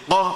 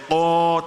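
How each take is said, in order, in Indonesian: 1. Vokalnya pendek dan tegas. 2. Vokalnya ditahan selama dua ketukan. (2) "dibaca panjang"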